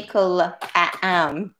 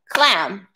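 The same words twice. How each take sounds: First: "clam" broken apart slowly into several beats; "clam" wrongly stretched into separate syllables, cuh-la-am; split into syllables. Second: Said in the usual way. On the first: Shown as a demonstration. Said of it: "We don't say". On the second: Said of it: "We only say clam".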